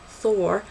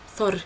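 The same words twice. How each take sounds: First: The name is said with English pronunciation. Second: The name is said with non-English pronunciation. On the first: "in the English way" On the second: "rather than"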